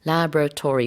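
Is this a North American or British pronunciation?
North American. It is said with a North American accent.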